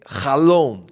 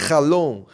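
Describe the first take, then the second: No difference in how they are said.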